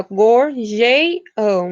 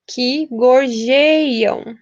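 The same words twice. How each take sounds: First: Very slow "gorjeiam" with its vowels joined; escansão bem lenta. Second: Very slow, syllable-by-syllable "gorjeiam"; escansão bem lenta. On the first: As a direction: drag out "gorjeiam", gluing the vowels. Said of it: "a gente junta as vogais e a gente conta". ("gorjeiam" bem devagar, juntando as vogais) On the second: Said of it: "as aves que a". ("gorjeiam" bem devagar, sílaba por sílaba) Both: Shown as a demonstration.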